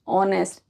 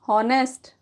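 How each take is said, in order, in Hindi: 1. शब्द की शुरुआत स्वर की ध्वनि से होती है। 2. शब्द की शुरुआत 'h' की ध्वनि से होती है।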